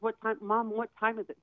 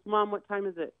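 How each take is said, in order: First: "Mom, what time is it" pressed, a touch higher; a son repeating the question impatiently, mildly imitated; lightly imitated insistent son. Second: Said in the usual way. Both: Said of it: "He was, like, very insistent".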